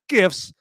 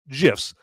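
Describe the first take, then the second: First: It begins with a hard g sound. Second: It begins with a soft j sound. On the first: This is the pronunciation the speaker rejects. The speaker calls it wrong. "not GIFs" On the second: This is the pronunciation the creator uses. The speaker calls it right. "I call them GIFs"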